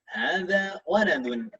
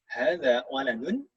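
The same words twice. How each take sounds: First: It is said with an answering, statement intonation. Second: It is said with a questioning intonation. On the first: It states something. The speaker calls it right. "intonasinya seperti menjawab" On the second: It asks something. The speaker calls it wrong. "bukan seperti itu"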